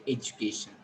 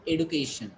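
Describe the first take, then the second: First: "education" as ed-joo-KAY-shun; soft DJ in "education"; standard pronunciation. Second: "education" as ed-oo-KAY-shun; hard D in "education"; alternative pronunciation. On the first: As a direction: say "education" with a J sound for the D. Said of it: "all people say it education". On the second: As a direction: say "education" with a plain D, no J. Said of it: "they call it education". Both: Shown as a demonstration.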